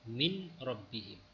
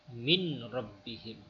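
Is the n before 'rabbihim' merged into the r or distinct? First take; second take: distinct; distinct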